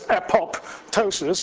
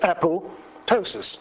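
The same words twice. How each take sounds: First: The second p is clearly pronounced. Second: The second p is silent. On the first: The speaker calls it wrong. "most people say there's apoptosis" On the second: The speaker calls it right. "Is a silent P"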